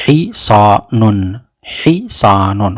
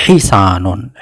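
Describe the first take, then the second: First: Hisanun said slowly, syllable by syllable; slowly modelled Hisanun. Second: Said in the usual way. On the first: Shown as a demonstration. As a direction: drag out Hisanun for learners. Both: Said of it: "Le cheval, on dit".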